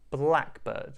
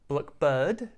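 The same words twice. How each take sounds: First: The stress falls on the first part, black. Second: The stress falls on the second part, bird. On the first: The speaker calls it right. "Just try to repeat it like me" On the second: The speaker calls it wrong. "We're not saying blackbird"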